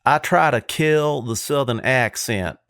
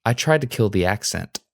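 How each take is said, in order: First: Slow, exaggerated Southern accent; most Southern accent. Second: Suppressed Southern accent, even and neutral; non-Southern accent. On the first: Host showing off his most Southern accent he can do. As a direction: stretch it out in a thick Southern accent. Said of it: "try to say it in the most Southern accent". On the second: Co-host asked to kill the accent, speaking in non-Southern accent. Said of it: "in the most non-Southern accent you can muster". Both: Shown as a demonstration.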